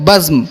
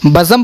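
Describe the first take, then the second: First: The z and m join with no vowel. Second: A short vowel separates the z and m. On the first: The speaker calls it right. "सही तलफ़ुज़ है बज़्म" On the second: The speaker calls it wrong. "बज़म पढ़ना गलत है"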